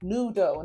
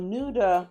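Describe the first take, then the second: First: The name ends with an 'oh' sound. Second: The name ends with an 'ah' sound. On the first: The speaker calls it right. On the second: The speaker calls it wrong. "not Nuda"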